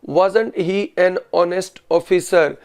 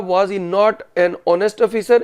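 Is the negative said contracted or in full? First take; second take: contracted; in full. First: Was not is contracted into one word. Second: Was and not are said as separate full words. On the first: This is the spoken style. "ये spoken English में।" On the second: This is the written style. "ये written English."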